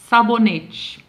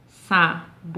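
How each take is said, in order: First: Said in the usual way. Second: "Sabonete" in four spaced beats, SA, BO, NE, TE; separado em sílabas. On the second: Shown as a demonstration. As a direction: break "Sabonete" into syllables with long pauses. ("Sabonete" bem pausado, sa... bo... ne... te) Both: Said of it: "Também seria um polissílabo".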